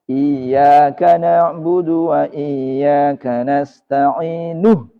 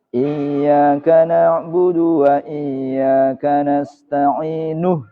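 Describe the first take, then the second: No difference in how they are said.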